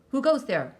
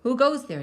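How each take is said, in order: First: Loud, high roar of a startled guard; guard's roar. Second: A sharp, high, loud yelp; second guard yelping at a flicker in the vineyard; yelped challenge. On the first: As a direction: bellow the challenge into the dark. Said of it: "roared a guard". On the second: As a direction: jump at a shadow and yelp it out. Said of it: "yelped another". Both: A narrator's reading.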